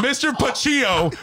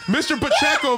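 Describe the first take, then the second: First: "Pacillo" drawn out as puh-CHEE-oh; high, stretched "Pacillo" with a long "chee"; mocking mispronunciation. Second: "Pacheco" said with a CHECK in the middle; higher-pitched "Pacheco" with a clear "check"; correct name pronunciation. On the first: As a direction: mangle the name slowly into "Pacillo", high and amused. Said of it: "Mister Pacheco, by the way". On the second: Shown as a demonstration. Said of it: "by the way".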